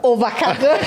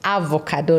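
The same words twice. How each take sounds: First: The first vowel is not an 'ah' sound. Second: The first vowel is an open 'ah' sound. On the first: The speaker calls it wrong. "not avocado" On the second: The speaker calls it right. "So you can hear the ah"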